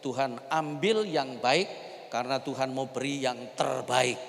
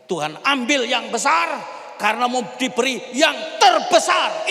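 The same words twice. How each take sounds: First: Said in the usual way. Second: Preach. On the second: Shown as a demonstration. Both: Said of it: "Percayalah begini".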